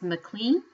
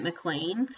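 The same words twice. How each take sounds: First: McLean said "muh-KLEEN", questioning rise; looked-up pronunciation. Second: McLean said "muh-KLAYN"; her usual reading pronunciation. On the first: Podcaster offering the possible correct name, McLean as muh-KLEEN. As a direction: say McLean to rhyme with "clean". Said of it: "I think it might be pronounced". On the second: Podcaster giving how she always read the name, McLean as muh-KLAYN. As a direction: say McLean to rhyme with "lane". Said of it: "reading it, have always pronounced it". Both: Shown as a demonstration.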